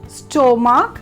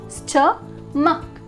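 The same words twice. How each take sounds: First: The first syllable sounds like 'stoh'. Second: The first syllable sounds like 'stuh'. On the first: The speaker calls it wrong. "Mainly how you will pronounce it as stomach" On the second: The speaker calls it right. "it will be stomach. St. S T U H"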